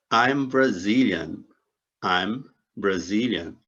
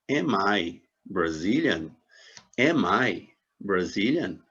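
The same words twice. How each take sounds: First: Slow "I'm Brazilian", falling at the end; "I'm Brazilian" drawn out, closing on a fall; statement intonation. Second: Slow, deliberate "am I Brazilian" as a model question; "am I Brazilian" drawn out, with "am" leading; question intonation. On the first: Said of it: "uma afirmação". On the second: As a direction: ask "am I Brazilian" slowly, leaning on "am". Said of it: "em interrogação". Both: Shown as a demonstration.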